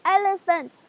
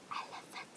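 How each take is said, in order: First: Loud, raised answer; high voice. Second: Hushed whisper of the word; low voice. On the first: Students answering the teacher's whispered word, high loud voice. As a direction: answer loudly and higher. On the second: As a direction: answer in a tiny whisper. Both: Shown as a demonstration. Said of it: "this is a high-low voice".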